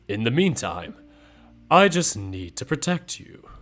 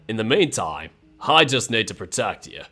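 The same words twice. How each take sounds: First: It is spoken without an Australian accent. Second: It is spoken in an Australian accent. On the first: "What if I go back to the old one?" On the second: "if I go back to the Australian accent, it's like this"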